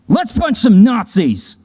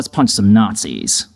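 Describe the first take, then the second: First: It is said in a lighthearted, upbeat tone. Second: It is said in a sober, serious tone. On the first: The situation is a playful romp. "black comedy to light the mood" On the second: The situation is grave and resigned. "change the tone to something more sober"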